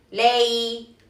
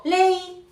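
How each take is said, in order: First: "lei" drawn out with a slightly bent tone; curved tone. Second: "lei" held high and level like Mandarin first tone; wrong high tone. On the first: Teacher showing the right tone, long curved "lei". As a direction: bend "lei" gently and hold it. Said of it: "curvear un poco el tono". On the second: Teacher showing the mistake to avoid, high level "lei". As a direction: sing out "lei" high without any bend. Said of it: "no estamos utilizando el primer tono". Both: Shown as a demonstration.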